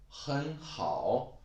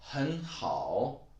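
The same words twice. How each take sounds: No difference in how they are said.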